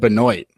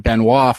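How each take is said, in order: First: The name is said with an English-style pronunciation. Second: The name is said with a French-style pronunciation. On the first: This is how others actually said it. "they said Benoit" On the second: This is how the spelling suggests it in French. "that should be Benoit from everything we heard from French"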